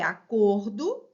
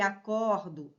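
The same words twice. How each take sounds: First: "acordo" with a closed O, "a-CÔR-do". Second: "acordo" with an open O, "a-CÓR-do". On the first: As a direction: round the stressed O of "acordo" into ô. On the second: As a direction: widen the stressed O of "acordo" into ó. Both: Shown as a demonstration.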